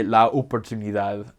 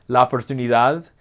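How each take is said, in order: First: "la oportunidad" with each vowel tall and distinct; correct Spanish. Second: "la oportunidad" with the "a" and "o" merged; learner's mistake demo; wrong pronunciation. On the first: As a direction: separate "la" and "oportunidad" cleanly. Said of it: "you need to learn to say". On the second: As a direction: tie "la" into "oportunidad" like an English speaker. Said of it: "Instead of saying". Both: Shown as a demonstration.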